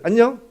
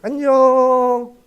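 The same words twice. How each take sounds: First: It is said in a hello greeting tone. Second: It is said in a goodbye parting tone. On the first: The speaker is meeting someone. "만날 땐 안녕" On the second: The speaker is parting from someone. "헤어질 땐 안녕 이렇게 어투가 약간 다른 거죠"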